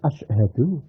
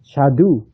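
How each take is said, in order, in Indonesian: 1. Dimulai dengan vokal sebelum 'sh'. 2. Vokal di awal dihilangkan, dimulai dengan 'sh'. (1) "padahal asyhadu" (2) "Menghilangi hamzahnya asyhadu"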